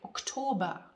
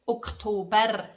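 First: The final R sound is dropped. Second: The final R sound is pronounced. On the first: This is the Standard German way. "The Germans don't really pronounce the R at the end in this case, like Oktober" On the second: This is the Swiss German way. "We say Oktober. I pronounce the R in the end"

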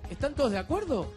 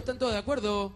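First: The pitch rises like a real question. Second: The pitch stays flat without question intonation. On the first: The speaker calls it right. "Yo tengo que decir" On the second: The speaker calls it wrong. "tengo mal la entonación del signo de pregunta? Porque digo"

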